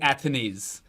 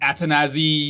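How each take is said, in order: First: The name ends with a soft 'ahs' sound. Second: The name ends with a 'zee' sound. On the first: This is how the player himself says it. The speaker calls it right. "it is Athanase" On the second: This is how many people have said it. The speaker calls it wrong. "a lot of people have pronounced his names in different ways"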